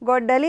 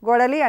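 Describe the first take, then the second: First: The middle d sound is held long, doubled. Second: The middle d sound is short, single. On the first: The speaker calls it right. "డాకు డా ఒత్తు ఇవ్వాలి, ఇస్తేనే గొడ్డలి అవుతుంది" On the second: The speaker calls it wrong. "లేకపోతే అదేమవుతుంది? గొడలి అంటారు కదా"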